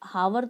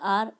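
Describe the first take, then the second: First: The word begins with an audible h sound. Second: The word begins with a vowel, no h. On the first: The speaker calls it wrong. "हावर तो नहीं बोलते अपन" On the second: The speaker calls it right. "Sound vowel का आ रहा है"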